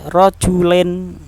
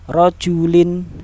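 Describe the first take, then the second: First: The final vowel sounds like 'e'. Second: The final vowel sounds like 'i'. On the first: The speaker calls it wrong. "jangan sampai rojulen, len, jangan" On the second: The speaker calls it right. "tapi tin, ya, in bacanya"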